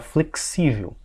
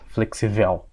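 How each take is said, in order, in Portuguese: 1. A sílaba tônica cai na penúltima sílaba. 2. A sílaba tônica cai na última sílaba. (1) "quero falar flexível... vou passar para cá, o xi" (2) "seria uma palavra oxítona... eu não quero falar flexível"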